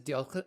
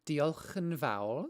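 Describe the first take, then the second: First: Diolch- started in Welsh but broken off; reaching for the Welsh word diolch and losing it; fumbled Welsh. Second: Diolch yn fawr said slowly and carefully in Welsh; Welsh thank you. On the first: A Welsh learner stumbling over diolch. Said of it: "I can't even say it anymore". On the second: Teaching the viewers Welsh thanks, slow and careful. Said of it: "which is thank you". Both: Shown as a demonstration.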